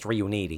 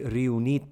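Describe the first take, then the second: First: The name has an American pronunciation. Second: The name has an Italian pronunciation.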